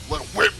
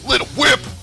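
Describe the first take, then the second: First: It is said with little energy or flair. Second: It is said with lots of energy and flair.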